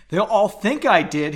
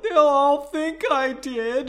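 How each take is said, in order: First: A louder, higher whining plea; half-hearted wail; mild wail. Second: Much higher, slow anguished wail; drawn-out despairing wail; full wail. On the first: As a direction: complain it like a first wail. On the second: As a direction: howl it out in despair. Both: Acted. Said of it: "he wailed".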